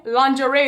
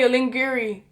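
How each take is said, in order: First: Said in the usual way. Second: "lingiri" said as ling-GEE-ree; comic mispronunciation. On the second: Shown as a demonstration. Vlogger joking about the party outfits, comic mispronunciation. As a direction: say "lingiri" with a hard g. Deliberate mispronunciation after normal word.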